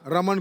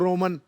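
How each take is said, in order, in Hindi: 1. पहला स्वर एक खुला 'a' जैसा है। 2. पहला स्वर 'o' की तरह गोल है।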